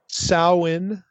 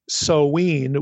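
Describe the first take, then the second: First: The middle vowel rhymes with cow. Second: The middle vowel rhymes with glow. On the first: "like ow, the O-W in cow" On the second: "with the O-W like glow"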